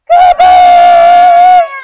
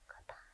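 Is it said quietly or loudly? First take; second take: loudly; quietly. First: It is said very loudly. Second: It is said very quietly.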